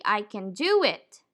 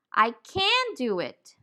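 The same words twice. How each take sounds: First: "can" shrunk to kun, stress on "do"; reduced "can", stressed DO. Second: "can" stressed and drawn out with a full a; emphatic CAN. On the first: Teacher showing a simple positive sentence, reduced can. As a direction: say "can" weakly and lean on "do". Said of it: "Depending on the intention, the pronunciation may change". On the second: Teacher showing how intention changes the word, emphatic can. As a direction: slowly lean on "can", vowel unreduced. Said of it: "depending on the intention, the pronunciation also changes". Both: Shown as a demonstration.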